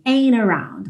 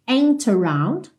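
First: The T is dropped, linking N into around. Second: The T sound in ain't is pronounced. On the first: "esse T pode ser omitido e você então vai ouvir a ligação direto no N" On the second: "você pode ouvir ain't around com o T"

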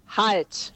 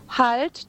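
First: It is said firmly as a sharp command. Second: It is said softly like a polite request. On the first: It is an order that must be obeyed. The speaker calls it right. "Dann muss ich halt sagen" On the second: It is only a request. The speaker calls it wrong. "Und nicht halt, das ist ja keine Bitte"

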